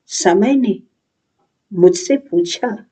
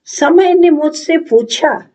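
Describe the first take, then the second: First: Lowered repeat. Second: Declaimed on a high, lifted pitch; raised declaiming. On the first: Thoughtful youth echoes time's question to himself, lowered delivery. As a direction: let the line settle and drop. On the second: Thoughtful youth recalls time questioning him, raised declaiming. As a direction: lift the line high, theatrically. Monologue line, first take. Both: Acted.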